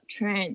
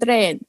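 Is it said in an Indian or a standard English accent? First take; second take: standard; Indian. First: It is said with a standard English t sound. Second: It is said with an Indian accent, voiced t.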